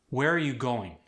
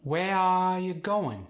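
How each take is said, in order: First: Said in the usual way. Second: High, slow Khmer accent, stretched vowels; Khmer-accented, long singsong vowels. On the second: Shown as a demonstration. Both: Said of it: "Vowels are elongated quite often".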